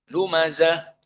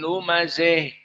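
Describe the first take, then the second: First: The final vowel is a plain open a. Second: The final vowel is tilted strongly toward e. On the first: This is the majority reading. "Al-Jumhur menyebutkannya dengan ha at-ta'nis" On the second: This is one particular reading tradition. "qiraah al-Kisai dijadikan al-imalah al-kubro"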